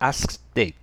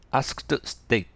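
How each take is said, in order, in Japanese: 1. 連続する子音の一つは発音しません。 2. 連続する子音は、すべて発音します。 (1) "一緒に発音しましょう。" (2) "言いづらいですね。"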